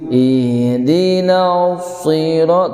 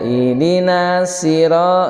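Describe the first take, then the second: First: The s sound is thick, with a raised tongue back. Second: The s sound is thin, like a plain s. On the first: The speaker calls it right. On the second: The speaker calls it wrong.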